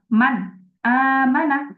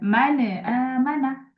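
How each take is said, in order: First: A pause separates the n from the next word. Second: The n is released with an echoing bounce. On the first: "bukan eh, ... tanpa adanya jeda dengan huruf berikutnya" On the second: "tanpa adanya kolkolah, bukan"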